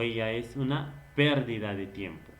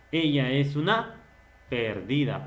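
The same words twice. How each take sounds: First: Pérdida stressed on the opening PÉR; stress on first syllable. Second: Perdida stressed on the middle DI; stress on second syllable. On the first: Teacher giving the contrasting example, pérdida stressed on PÉR. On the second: Teacher giving an example phrase, perdida stressed on DI. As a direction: lean on DI in perdida. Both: Shown as a demonstration. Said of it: "la presencia del acento".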